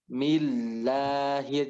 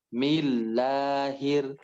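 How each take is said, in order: No difference in how they are said.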